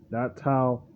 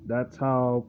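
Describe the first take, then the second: No difference in how they are said.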